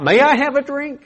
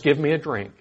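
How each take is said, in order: First: High, polite asking voice; polite request. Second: Said in the usual way. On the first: Pretend. Preacher contrasting a polite request, high and polite. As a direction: ask it sweetly and politely.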